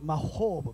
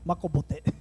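First: It is said with the original Hebrew sounds. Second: It is said with Japanese sounds and extra vowels. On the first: "これ案外正しい発音" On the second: "日本で言うとマコボテ"

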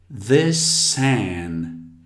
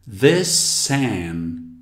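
First: The words are linked with an S sound. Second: The same.

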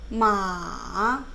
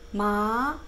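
First: The pitch dips low first, then rises. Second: The pitch rises steadily from middle to high. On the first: "내려갔다가 올라간 거예요" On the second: "마 이렇게 올라가는 연습"

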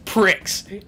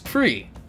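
First: The word ends with a ks sound. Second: The word ends with a long ee vowel. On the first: The speaker calls it wrong. "it says Prix, like tricks, like the cereal" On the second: The speaker calls it right. "but it's Prix. just remove the X, it would still be pre"

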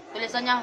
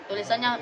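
Both takes have the same delivery.

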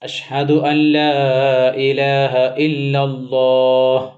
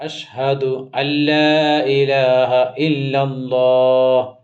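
No difference in how they are said.

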